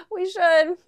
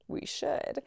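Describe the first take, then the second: First: High, loud, giggly reply; laughing agreement. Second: Soft, high, near-whispered; hushed agreement. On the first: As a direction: imitate agreeing through a laugh. Laughing along with friends' suggestion. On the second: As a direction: repeat it softly, as if it just dawned. Repeats it as quiet realisation. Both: Retold or imitated.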